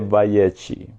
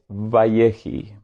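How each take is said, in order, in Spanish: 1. La consonante del medio es una 'ch' gutural rasposa. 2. La consonante del medio es una 'h' suave y aspirada. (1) "En la línea Askenazi dice Vayechi" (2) "En la línea sefardita la fonética es Vayehi"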